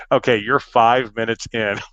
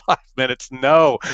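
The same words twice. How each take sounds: First: Said in the usual way. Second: Higher-pitched incredulous echo; retold groan of protest at the news; dismayed disbelief. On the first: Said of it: "gets on the speaker and he goes". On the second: Dismayed echo of technician's update.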